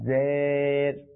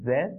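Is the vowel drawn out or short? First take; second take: drawn out; short. First: The vowel is drawn out long. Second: The vowel is kept short. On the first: The speaker calls it wrong. "জের এটা হচ্ছে ভুল উচ্চারণ" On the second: The speaker calls it right. "সঠিক উচ্চারণটা হচ্ছে কি"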